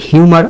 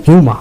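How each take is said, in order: First: "হিউমার" with the final r sounded; American-style "হিউমার", pronouncing the r at the end; American pronunciation. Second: "হিউমা" with the final r silent; British-style "হিউমা", ending on an open vowel; British pronunciation. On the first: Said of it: "আর এর উচ্চারণ হবে American". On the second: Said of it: "British আর এর উচ্চারণ হয় না". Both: Shown as a demonstration.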